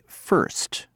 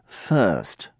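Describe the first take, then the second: First: American accent, with the r sounded. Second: British accent, with the r dropped. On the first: "Americans say first" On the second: "British say first"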